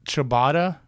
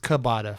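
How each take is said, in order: First: The word begins with a 'ch' sound. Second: The word begins with a 'k' sound. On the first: "so ciabatta" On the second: "is cabata for her"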